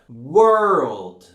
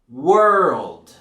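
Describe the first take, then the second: First: It has a strong R after the vowel. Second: It has a strong R after the vowel.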